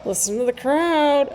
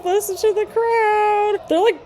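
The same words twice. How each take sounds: First: Said in the usual way. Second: Higher and slower, full of thrill; excited. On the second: Real, not acted. Urging viewers to hear the roaring crowd, higher and slower. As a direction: savour the crowd's roar, drawn out. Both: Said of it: "repeats phrase, rising excitement".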